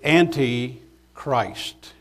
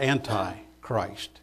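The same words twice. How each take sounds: First: The first part ends in a short 'ee' sound. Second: The first part ends in a long 'eye' sound. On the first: The speaker calls it right. "the word is anti-Christ" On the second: The speaker calls it wrong. "not anti-Christ"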